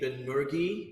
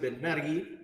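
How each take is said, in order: First: The name is said with an American pronunciation. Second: The name is said with a Spanish-style pronunciation.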